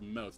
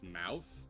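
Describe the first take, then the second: First: It is said in the speaker's own accent. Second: It is said in a general American accent.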